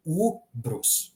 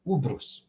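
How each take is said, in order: First: "Ubrus" with high, held first U; longer first U. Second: Said in the usual way. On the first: Shown as a demonstration. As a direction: hold the first U of "Ubrus", keep the second short. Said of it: "the first one was, uh, longer".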